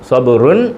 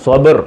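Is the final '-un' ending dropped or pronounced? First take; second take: pronounced; dropped. First: The word ends with a full '-un' ending. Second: The word ends on a bare final consonant. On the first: The reading continues without stopping. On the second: The reading stops on this word.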